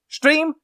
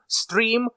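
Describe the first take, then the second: First: It begins with a German-like sh sound. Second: It begins with a plain s sound. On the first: "They say" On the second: "They don't say"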